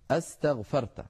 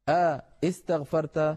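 First: Only one vowel onset is heard at the start. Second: Two vowel onsets are heard at the start.

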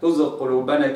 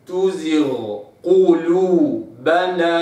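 First: The gh sound merges into the following q. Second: The gh sound is held clearly before the q. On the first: The speaker calls it wrong. "كن يعني الغين أضمت في القاف" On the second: The speaker calls it right. "لابد أن أوضح الغين، فأقرأ هكذا"

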